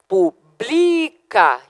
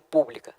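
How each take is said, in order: First: The stress falls on the second syllable. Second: The stress falls on the first syllable. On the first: It is the verb meaning publishes. "verbo publica, que é paroxítona" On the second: It is the adjective meaning public. "do adjetivo pública"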